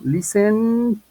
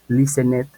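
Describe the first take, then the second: First: The ending adds no extra syllable. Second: The ending is said as an extra syllable. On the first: The speaker calls it right. "van a decir algo como listen" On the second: The speaker calls it wrong. "no necesito decir listen it"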